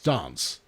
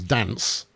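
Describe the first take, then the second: First: Its vowel differs from the vowel of 'romance'. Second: Its vowel matches the vowel of 'romance'. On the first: "that's how you pronounce it" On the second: "then it would it would uh, it would rhyme"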